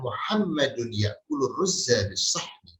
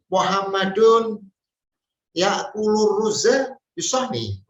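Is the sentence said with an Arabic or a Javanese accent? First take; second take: Arabic; Javanese. First: It is said with a native Arabic accent. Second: It is said with a Central Javanese accent. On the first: The speaker calls it right. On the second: The speaker calls it wrong. "dengan bahasa logat ibunya atau logat daerahnya"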